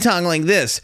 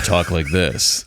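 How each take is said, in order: First: The voice sounds pinched and nasal. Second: The voice sounds open and resonant. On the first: This is the old way of speaking. The speaker calls it wrong. "I used to talk like this" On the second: This is the new, trained way of speaking. The speaker calls it right. "and now I talk like this"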